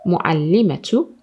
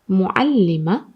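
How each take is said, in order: First: The word ends with a t and vowel. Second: The word ends with a soft h sound. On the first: "the ta is pronounced ta" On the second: "here is pronounced as ha"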